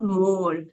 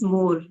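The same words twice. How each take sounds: First: The o vowel is overdone and drawn out. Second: The o vowel is said plainly. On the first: The speaker calls it wrong. "not more ... focus more on o sound" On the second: The speaker calls it right. "It's more"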